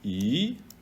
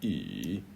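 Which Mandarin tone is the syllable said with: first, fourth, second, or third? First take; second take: second; third. First: The syllable is said with the second tone. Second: The syllable is said with the third tone.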